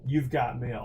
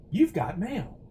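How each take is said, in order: First: Said in the usual way. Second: Higher, put-on announcement of the catchphrase; mock catchphrase. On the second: Streamer quoting a film title to chat, mock catchphrase. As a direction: play it as a lightly hammed announcement.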